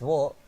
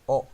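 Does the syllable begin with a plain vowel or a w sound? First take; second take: w sound; plain vowel. First: The syllable begins with a w sound. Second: The syllable begins with a plain vowel. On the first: This is the older pronunciation of the letter. The speaker calls it wrong. "well, it's wo" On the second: This is the modern pronunciation of the letter. The speaker calls it right. "They pronounce o, just like the o sound in vowels"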